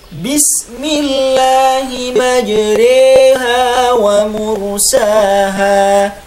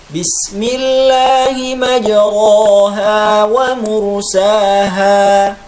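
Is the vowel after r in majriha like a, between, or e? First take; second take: e; a. First: The vowel after r leans fully toward e. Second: The vowel after r is a plain open a. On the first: The speaker calls it right. "cara membaca imalah dengan baik dan benar" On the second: The speaker calls it wrong. "membaca imalah seperti membaca fathah"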